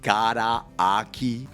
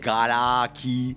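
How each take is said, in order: First: The ah sound is said twice, kept separate. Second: The ah sounds merge into one, linked. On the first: The speaker calls it right. "say the ah sound twice" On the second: The speaker calls it wrong. "You don't say garaki"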